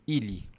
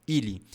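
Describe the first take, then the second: No difference in how they are said.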